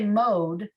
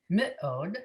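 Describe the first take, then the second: First: The first consonant runs straight into the vowel. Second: The first consonant gets its own short vowel. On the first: The speaker calls it wrong. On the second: The speaker calls it right.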